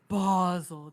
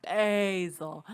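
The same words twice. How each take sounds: First: Basel with a long open AH; mock-correcting Basel as a stretched BAH-zel. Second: Basel with a long AY, drawn out; the rejected Basel, stretched BAY-zel. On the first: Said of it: "everyone who's like". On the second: Retold or imitated. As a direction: say Basel to rhyme with hazel. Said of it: "it's not Art".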